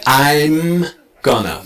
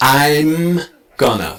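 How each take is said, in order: First: A strong M sound follows I. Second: The same.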